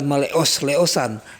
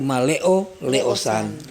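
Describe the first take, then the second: First: The first part ends with an s sound. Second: The first part ends without an s sound. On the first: The speaker calls it wrong. "bukan maleos leosan" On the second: The speaker calls it right. "tapi maleo leosan"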